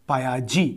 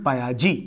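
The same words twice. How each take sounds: The two takes are said the same way.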